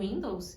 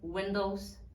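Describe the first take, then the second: First: The first vowel is a clear 'ee' sound. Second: The first vowel is an 'eh'-like sound. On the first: The speaker calls it wrong. "tudo isso é falado com som de I" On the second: The speaker calls it right. "essas palavras têm o som de E"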